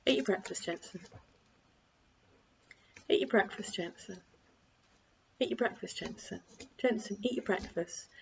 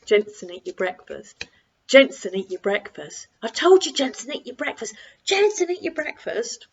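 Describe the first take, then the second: First: Soft, even, unhurried repetition; calm broken record. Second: Escalating shout. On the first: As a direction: repeat it calmly with no rise at all. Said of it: "Keep it like a broken record". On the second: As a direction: lose your patience step by step until you yell. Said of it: "So instead of it being". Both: Shown as a demonstration.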